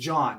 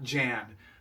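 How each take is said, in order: First: The vowel is the open 'o' of John. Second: The vowel is the flat 'a' of Jan. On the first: The speaker calls it right. "but pronounced John" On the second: The speaker calls it wrong. "not Jan"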